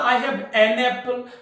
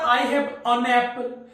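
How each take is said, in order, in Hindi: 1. Article एक पूरी 'an' ध्वनि है। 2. आर्टिकल एक छोटी, कमज़ोर 'un' ध्वनि है।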